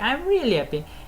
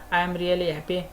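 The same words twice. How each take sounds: First: The word really carries strong emphasis. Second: The word really carries no special emphasis. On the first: The speaker calls it right. "it's a really means of passes on really" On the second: The speaker calls it wrong. "this is not a good pronunciation"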